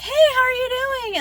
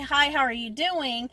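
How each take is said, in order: First: The greeting is said cheerfully, with warmth. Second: The greeting is said flatly, without warmth.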